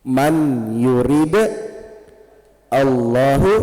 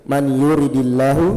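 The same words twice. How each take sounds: First: "Man yurid Allahu" word by word, "yurid" stopped on its d; original sukun form. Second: "Man yuridillahu" run together, "di" linking into "llahu"; joined with kasrah. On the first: Teacher showing the original form, "yurid" with sukun, words separated. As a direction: split "yurid" from "Allahu", no vowel linking them. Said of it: "Aslinya sukun". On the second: Teacher reading hadith to class, "yuridillahu" linked by kasrah. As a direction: read "yuridillahu" as one word, with an i after the d. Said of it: "yang ini harus di kasroh". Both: Shown as a demonstration.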